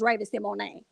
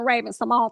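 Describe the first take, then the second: First: The name ends with an 'ay' sound. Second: The name ends with a plain 'oan' sound. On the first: This is how the person herself says it. The speaker calls it right. "she said it's Raven Simone" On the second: This is how most people have always said it. The speaker calls it wrong. "it's giving [name] for me"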